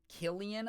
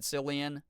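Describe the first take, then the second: First: The name starts with a hard K sound. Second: The name starts with a soft C sound. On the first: The speaker calls it right. "I think it's with a hard C" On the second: The speaker calls it wrong. "I've accidentally said Cillian"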